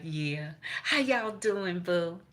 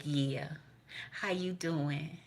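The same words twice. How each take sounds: First: Perky greeting. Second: Slow, softer mock greeting; drawn-out hushed hello. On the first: Retold or imitated. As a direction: chirp the greeting cheerfully. Quoted greeting, repeated. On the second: Greeting grandmama, slow and soft.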